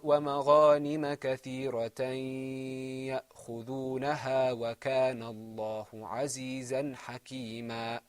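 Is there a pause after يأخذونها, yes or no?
no. There is no pause after يأخذونها.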